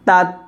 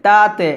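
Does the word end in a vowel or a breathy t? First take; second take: breathy t; vowel. First: The final t ends with a breathy release. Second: An extra vowel follows the final t. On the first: The speaker calls it right. "তাত হামসা হবে" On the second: The speaker calls it wrong. "তাতে তাতে, এটা কিন্তু না"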